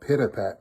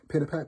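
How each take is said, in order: First: The word is said loudly and heavily. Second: The word is said softly and lightly. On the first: A big wolf is following heavily. "a very loud pit-a-pat" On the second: A small child is tiptoeing quietly. "softly on tippy toes"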